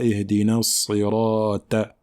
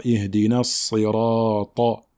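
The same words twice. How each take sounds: First: Slow "sirata" with a light final "ta"; thin Ta, wrong. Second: Slow "sirata" with a heavy, dark final "ta"; emphatic Ta. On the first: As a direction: flatten the emphatic "ta" of "sirata" to plain T. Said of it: "et non pas". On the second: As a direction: make the last "ta" of "sirata" emphatic. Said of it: "Il faut bien emphatiser le ta". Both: Shown as a demonstration.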